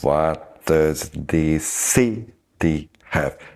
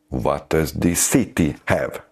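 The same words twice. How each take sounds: First: It is said slowly and deliberately. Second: It is said at a normal speed.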